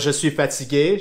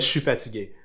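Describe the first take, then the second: First: The opening words are said fully and separately. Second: The opening words are run together and shortened.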